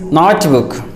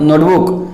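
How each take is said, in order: First: Notebook with an open "aw", NAWT-book; correct pronunciation. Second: Notebook with a closed "o", NOHT-book; wrong pronunciation. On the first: Teacher correcting the word, notebook said NAWT-book. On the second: Teacher showing what to avoid, notebook as NOHT-book. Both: Shown as a demonstration. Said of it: "Its pronunciation is not".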